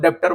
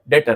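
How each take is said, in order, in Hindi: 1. बीच में b की ध्वनि बोली जाती है। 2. बीच में कोई b की ध्वनि नहीं बोली जाती। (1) "कई लोग डेप्टर बोलते हैं" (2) "बी साइलेंट है"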